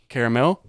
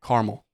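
First: CARAMEL in three beats, care-uh-mel; "caramel" with the middle vowel kept; three-syllable caramel. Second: CARAMEL squeezed to car-mul; "caramel" without its middle syllable; two-syllable caramel. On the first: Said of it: "do you pronounce it". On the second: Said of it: "or do you pronounce it". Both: Shown as a demonstration.

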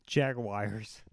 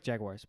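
First: Jaguars said slowly as jag-wires; careful Jaguars, jag-wires; slow enunciated Jaguars. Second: Jaguars said fast as jag-wahrz, dropped at the end; fast quiet Jaguars; quick Jaguars. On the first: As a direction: draw out Jaguars with wires at the end. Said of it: "But how do you really say it?". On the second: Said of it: "when you say it quick". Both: Shown as a demonstration.

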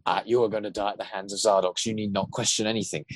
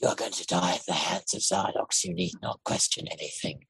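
First: Lightly voiced jokey, boastful villain; a hint of a show-off monster taunting; boastful Zardox. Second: Low, soft, flat menace in a different voice; Kovacs voice. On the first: Showing the Zardox voice as played, lightly boastful. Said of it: "He's sort of like". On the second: Contrasting Zardox's lines in the Kovacs voice, low and soft. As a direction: drop into the other villain's voice, lower and quieter. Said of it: "that in the other voice is". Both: Shown as a demonstration.

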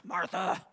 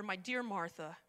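First: Curt, irritated name; annoyed. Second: Soft, lower loving address; tender. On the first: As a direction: snap the name impatiently. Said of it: "He wasn't like". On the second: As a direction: say her name with love. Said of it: "Can you hear the love in his voice?". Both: Retold or imitated.

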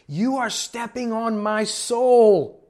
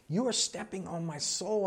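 First: Imitated woman's loud, high, drawn-out scream; hammed-up furious yell, stretched out; going off on him. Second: Raised pitch at normal volume; toned-down imitation of an outraged woman; mock outrage. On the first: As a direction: wail each word slowly at full outrage. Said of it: "going off on him". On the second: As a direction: echo her complaint in a higher voice. Requotes the outraged woman, softer.

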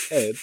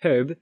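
First: HERB said as "erb"; herb starting on the vowel. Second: HERB with the H pronounced, louder; herb, H clearly there; sounded H. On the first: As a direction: say "herb" with the H dropped. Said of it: "H is not always pronounced". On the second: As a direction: say "herb" with a breathy H. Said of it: "The H in the word". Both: Shown as a demonstration.

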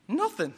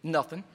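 First: Higher, lighter echo of the word Nothing; repeated nothing. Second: Low, soft and short, shutting him out; a clipped cold-shoulder nothing; curt wife's nothing. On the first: Shown as a demonstration. Preacher to congregation, echoing the wife's word higher. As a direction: toss Nothing back up high, mock-puzzled. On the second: Retold or imitated. Wife to husband, a low, soft, curt reply. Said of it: "What does she say?".

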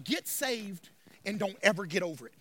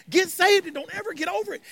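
First: Low, soft, confiding take; hushed preaching. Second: Lifted, insistent take without shouting; raised preaching pitch. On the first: Pastor summing up for congregation, low and hushed. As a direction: drop right down and say it quietly. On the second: Pastor urging congregation to get saved, raised insistent voice. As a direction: raise the pitch and press it home. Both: Real, not acted.

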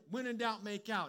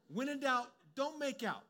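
First: Light mock of the tempting motto; tempting slogan. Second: "don't" pressed harder and higher than the motto; stress on don't. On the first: Preacher mocking the tempting thought before correcting it. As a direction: toss it off like a cheeky rule. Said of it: "'Cause you're thinking". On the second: Shown as a demonstration. Preacher correcting the motto, firm stress on "don't". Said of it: "And it's like, no, no, no".

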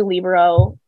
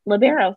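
First: "libero" said LEE-buh-ro; first-syllable stress. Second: "libero" said luh-BEAR-o; second-syllable stress. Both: Shown as a demonstration. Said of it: "The same thing is happening with".

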